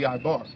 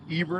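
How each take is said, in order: First: The name is said the Paleo Hebrew way. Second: The name is said the English way. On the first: "an actual Paleo Hebrew, like how it's written in, will be Ibar" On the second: "Eber in English"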